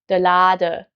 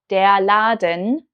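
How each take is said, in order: First: The word ends with a plain uh. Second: The word ends with the full en.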